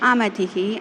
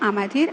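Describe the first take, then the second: First: The word ends in a separate hi sound. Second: The word ends in a joined r sound. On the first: The word stands alone, split from the others. "தனியா பிரிக்கும் பொழுது" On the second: The word is joined to the following word. "ஸ்வாகா ஸ்வதா அமதிர் மேதா அப்படின்னு சொல்றாங்க"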